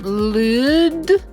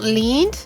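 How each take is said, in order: First: The vowel is a long oo sound. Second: The vowel is a long ee sound. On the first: "and not lewd" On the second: "So not lead"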